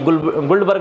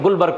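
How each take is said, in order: First: The name is said with a d sound. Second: The name is said without a d sound. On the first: The speaker calls it wrong. "गुलबर्ग लिखा हुआ है" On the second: The speaker calls it right. "लेकिन गुलबर्ग पढ़ना है, डी silent रखना है"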